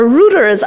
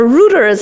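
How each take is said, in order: First: The word is said with a British pronunciation. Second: The same.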